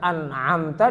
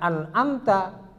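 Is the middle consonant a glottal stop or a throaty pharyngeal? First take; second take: pharyngeal; glottal stop. First: The middle consonant is a throaty pharyngeal sound. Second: The middle consonant is a plain glottal stop. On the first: The speaker calls it right. "Jangan sampai baca an'amta" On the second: The speaker calls it wrong. "dibaca an'amta"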